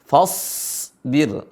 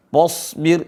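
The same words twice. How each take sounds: First: "Fasbir" with long hissed s straight into bir; careful model "Fasbir", no vowel after the s; correct flowing sad. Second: "Fasbir" said as "posbir"; mistaken po. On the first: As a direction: let the s run in the middle of "Fasbir". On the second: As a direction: turn the fa of "Fasbir" into a round po. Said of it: "bacanya po". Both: Shown as a demonstration.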